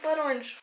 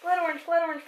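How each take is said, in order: First: Said in the usual way. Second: Whisper. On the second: Real, not acted. Hunting for the tea.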